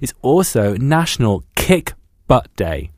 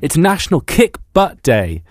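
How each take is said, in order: First: It is said with less energy and gusto. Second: It is said with more energy and gusto.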